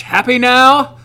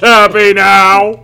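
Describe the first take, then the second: First: Higher, light sassy woman voice; sassy girl voice. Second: Very slow, louder sassy lady; sassy girl voice. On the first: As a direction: toss it off like a bored diva. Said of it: "who's got the sassiest girl voice?". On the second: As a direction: stretch it out like a bored aristocrat. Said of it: "So Liliana's a sassy, sophisticated lady". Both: Pretend.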